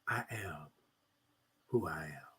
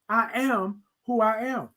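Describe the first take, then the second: First: It is said softly and soothingly. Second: It is said loudly, yelled out.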